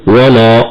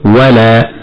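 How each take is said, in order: First: "ولا" with dark, thick ل and vowel; mistaken heavy lam at pause. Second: "ولا" with thin ل and clear open vowel; light lam at pause. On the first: Sheikh showing what to avoid, "ولا" with heavy ل. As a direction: stop on "ولا" with a heavy "law" colour. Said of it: "فلا نقول". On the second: Sheikh correcting the pause, "ولا" with light ل. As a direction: stop on "ولا" keeping "لا" light. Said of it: "بل نقول". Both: Shown as a demonstration.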